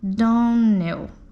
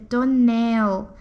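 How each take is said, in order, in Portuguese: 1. A tonicidade está na primeira sílaba. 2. A tonicidade está na última sílaba. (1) "a senhorita pronunciou nosso sobrenome Donnell" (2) "a pronúncia correta é Donnell, com a última sílaba tônica"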